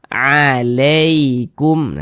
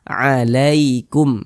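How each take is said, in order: First: The middle vowel leans toward an e sound. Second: The middle vowel is a soft ai diphthong. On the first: The speaker calls it wrong. "Jangan sampai condong ke huruf e, jangan dibaca alaikum" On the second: The speaker calls it right. "Tapi kita baca alaikum, nah, seperti itu"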